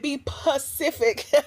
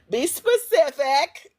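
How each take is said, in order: First: The word begins with a plain p sound. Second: The word begins with an sp sound.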